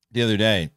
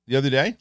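First: Said in the usual way. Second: THE OTHER DAY lifting into a question at DAY; self-questioning. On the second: Real, not acted. Reviewer doubting his own timing, DAY rising as a question. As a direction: query yourself with a rise on DAY.

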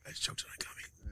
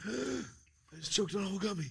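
First: Whispered after choking, nearly no voice; hoarse whisper. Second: Said in the usual way. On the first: Real, not acted. Still recovering from choking, whispers to friends on the podcast, voice gone. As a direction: rasp it out in a whisper, throat still raw.

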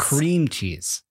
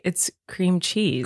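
First: "CREAM cheese", first word drawn and hit; stress on cream. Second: "cream CHEESE", slow, cheese drawn out; stress on cheese. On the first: Husband answers with his version, stress on cream. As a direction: put all the weight on "cream". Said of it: "I don't think people say". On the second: Host sets him straight, stress on cheese. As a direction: slowly lean on "cheese". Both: Shown as a demonstration.

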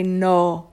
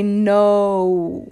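First: "no" with one unchanging O; pure Italian O. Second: "no" drawn out, gliding into oo; English diphthong no. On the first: Guest contrasting Italian with English, "no" on pure O. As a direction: say "no" without any oo glide. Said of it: "it's a pure O". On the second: Guest showing English vowels change, "no" gliding to oo. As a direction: say "no" slowly, ending on a U. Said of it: "the O goes into an". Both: Shown as a demonstration.

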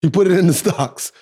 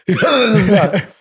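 First: Said in the usual way. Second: Louder, laughing repeat. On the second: Real, not acted.

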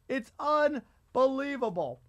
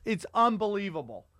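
First: Slow, higher, stressing unbelievable; drawn-out emphatic repeat. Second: Said in the usual way. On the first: Real, not acted. Comedian marveling to his co-host about China, slow emphatic. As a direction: stretch out unbelievable, pitched up.

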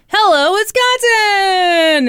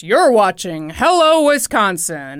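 First: High, loud, long-drawn cheer; mock cheery anchors' shout; group shout. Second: Loud, slow TV intro voice; imitation booming show announcer. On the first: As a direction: shout it like news anchors in a show intro, stretching the end. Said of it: "and they shout". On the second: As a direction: boom it out like a local news intro. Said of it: "They've got the booming voice".

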